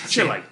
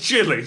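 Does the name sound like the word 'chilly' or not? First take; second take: not chilly; chilly. First: The name does not sound like 'chilly'. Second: The name sounds like the word 'chilly'. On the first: The speaker avoids setting up a pun about cold. "I deliberately didn't pronounce it Chile" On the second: It invites a pun about being cold. "just so you wouldn't do that joke"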